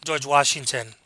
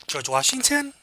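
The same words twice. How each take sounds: First: Said in the usual way. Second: "George Washington" climbing high at the end, like a question; unsure answer, pitch jumping up on "Washington"; rising inflection. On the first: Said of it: "the tag question with this". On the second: Shown as a demonstration. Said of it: "raising inflections is just the tone of your voice".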